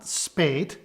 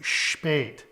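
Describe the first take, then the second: First: The word begins with a plain s sound. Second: The word begins with an sh sound. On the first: The speaker calls it wrong. "So not spät" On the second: The speaker calls it right. "it is pronounced sh"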